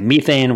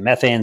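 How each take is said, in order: First: It is said with a British pronunciation. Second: It is said with an American pronunciation. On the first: "in places like Britain and India, they say methane" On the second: "whereas in America, they say methane"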